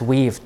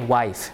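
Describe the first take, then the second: First: The vowel is a long 'ee' sound. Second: The vowel is an 'eye' diphthong. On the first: This is the older pronunciation before the shift. "today we pronounce it as weave" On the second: This is the newer pronunciation after the shift. "Tomorrow, let's say wife"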